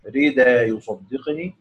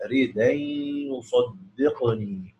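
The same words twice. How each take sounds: First: ردا يصدقني read as "rid'an" with the hamza kept; wrong reading. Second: ردا يصدقني very slow, ردا as "radan" with the hamza dropped; correct reading. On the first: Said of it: "يعني مش هيقرأ". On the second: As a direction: show the right way, ردا slowly as "radan". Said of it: "لا". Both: Shown as a demonstration.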